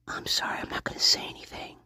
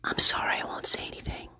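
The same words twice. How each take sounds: First: Soft unvoiced mock whisper, a bit hurried; imitating a whisper. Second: Soft unvoiced mock whisper; imitating a whisper. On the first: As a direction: whisper an apology like the suspect. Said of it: "And then she says". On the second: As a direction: whisper it as if to someone unseen. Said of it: "responding to another voice".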